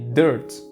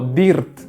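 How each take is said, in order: First: It is said with an English-style R vowel. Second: It is said with Spanish-style vowel and R. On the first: The speaker calls it right. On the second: The speaker calls it wrong.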